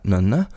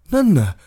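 First: It is said with a questioning tune. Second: It is said with a plain statement tune. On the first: Is that a balcony? "I olika tonfall. Alltså först så här, nönne, är det där en balkong?" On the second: That is a balcony. "det är en balkong"

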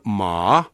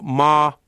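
First: The pitch first falls, then rises again. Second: The pitch stays level and flat throughout. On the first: It means horse. "alaspäin, ylöspäin" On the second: It means mother. "tämä tasainen sävelkorko"

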